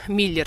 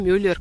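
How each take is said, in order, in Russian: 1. Первый гласный — простой неогублённый 'i'. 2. Первый гласный — округлённый звук 'yu'. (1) "мы говорим Миллер здесь" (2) "Мюллер, как некоторые"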